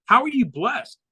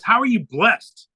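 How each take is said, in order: First: Higher, disbelieving "How are you blessed?"; incredulous question. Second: Slow, drawn-out puzzled question. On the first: Doctor repeats question, incredulous. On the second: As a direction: ask it slowly, as if you can't follow. Doctor's puzzled question, first ask. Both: Retold or imitated.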